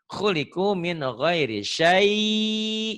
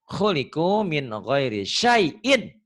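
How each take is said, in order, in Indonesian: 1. Kata terakhir berhenti begitu saja tanpa bunyi 'in'. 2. Kata terakhir berakhir dengan bunyi 'in' yang ditambahkan. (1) "Tapi kalau dihentikan" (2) "Kalau dibaca apa adanya"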